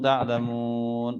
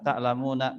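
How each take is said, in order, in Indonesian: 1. Kata ini berakhir dengan n, tanpa vokal di akhir. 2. Kata ini berakhir dengan vokal pendek. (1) "kalau kita mau berhentikan" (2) "kalau kita baca tak biasa"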